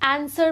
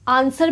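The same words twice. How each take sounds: First: The first vowel is like 'a' in cat. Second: The first vowel is a long open 'ah'. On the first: "ए" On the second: "आ"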